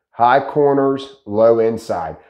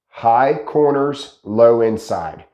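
No difference in how they are said.

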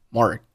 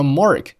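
First: "Mark" with the final k unreleased; swallowed k. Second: Said in the usual way. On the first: Shown as a demonstration. Teacher showing learners lost plosion, "Mark" with silent k. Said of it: "把声音给吞掉". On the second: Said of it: "Mark结尾的k".

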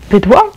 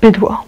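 First: Bydło asked back with a rising tune; questioning echo. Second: Bydło said flat and falling, final; stubborn repeat. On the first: Friend questions the word. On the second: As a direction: dig in and repeat Bydło doggedly. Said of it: "powtarzam zawzięcie". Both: A narrator's reading.

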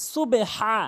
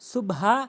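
First: "সুবে হা" with the b opened into short e; contrasting correct form. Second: "সুবহা" run together, no vowel after b; mistaken closed form. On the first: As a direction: open up "সুবে" before a throaty long "হা". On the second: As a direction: close "সুব" straight onto a plain h in "সুবহা". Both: Shown as a demonstration. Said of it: "দুটি কিন্তু পার্থক্য রয়েছে".

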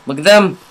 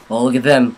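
First: Higher, louder excited repeat. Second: Said in the usual way. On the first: Real, not acted. Gamer spotting zombies, rising excited call. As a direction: point them out, rising excitement.

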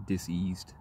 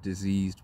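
First: "diseased" as dis-eased, with a hissed S; split-word pronunciation. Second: Said in the usual way. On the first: Shown as a demonstration. Explaining confusion rather than illness, "diseased" split as dis-eased.

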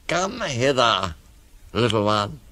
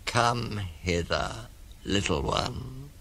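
First: Coaxing crocodile. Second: Slow, soft beckoning; coaxing crocodile. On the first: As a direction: lure them in, stretching each word. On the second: Crocodile lures the elephant child closer, slow and soft. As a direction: lure gently, stretching each word. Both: Acted. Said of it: "said the crocodile".

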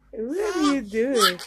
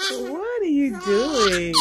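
First: Said in the usual way. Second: Slow, laughing question. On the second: Real, not acted. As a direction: laugh through the words. Laughing at baby's antics.

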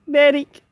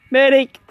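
First: Higher, louder medic call; man down shout. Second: Shouting for a medic; man down shout. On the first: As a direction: call out urgently for help. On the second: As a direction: yell out for help, wounded. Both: Real, not acted. Shot, calling for medic.

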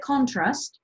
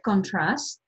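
First: "contrast" stressed on the first syllable, CONtrast; noun stress on contrast. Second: "contrast" stressed on the second syllable, conTRAST; verb stress on contrast. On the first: Teacher shows learners the noun, "contrast" stressed on CON. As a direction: say "contrast" as CONtrast, accent moved up front. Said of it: "ανεβάζω δηλαδή τον τόνο". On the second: Teacher shows learners the verb, "contrast" stressed on TRAST. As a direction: say "contrast" as conTRAST, weight on the last syllable. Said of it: "όταν είναι ρήμα". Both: Shown as a demonstration.

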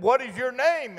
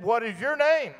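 First: High-pitched question called into the woods; boy calling out. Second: High-pitched copycat call; mocking echo reply. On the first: Retold or imitated. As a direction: call high to someone unseen. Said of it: "And I said". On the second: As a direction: echo the question straight back, high. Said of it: "And he said".

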